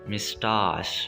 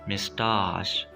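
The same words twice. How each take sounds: No difference in how they are said.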